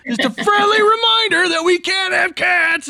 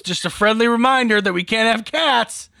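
First: Very high, loud mock shout; hammed-up shouted reminder. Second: Raised, louder mock-cheery reminder. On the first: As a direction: yell it way up high, overplaying it. Repeats his act, exaggerated. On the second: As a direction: play up a pointed friendly reminder. Acts out playing up his allergy.

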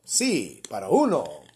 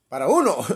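First: Phone menu voice. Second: Louder automated menu voice; phone menu voice. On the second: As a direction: read it like a recorded phone prompt. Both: Pretend. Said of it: "For Spanish, press one".

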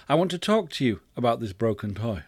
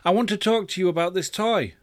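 First: Even, mild parental tone; calm request. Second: High-pitched, mildly impatient parent; slightly irritated. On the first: Acted. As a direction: ask patiently in a level voice. Second request, irritation gone. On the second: A narrator's reading. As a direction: raise the pitch with a touch of irritation. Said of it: "getting just a little irritated".

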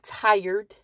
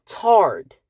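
First: Said in the usual way. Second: "tarred" said as "tard", rhyming with "card"; "tarred" as one syllable, like "hard"; country "tarred". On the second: Shown as a demonstration. Correcting herself for viewers, country "tarred". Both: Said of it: "Not tired, but tarred".

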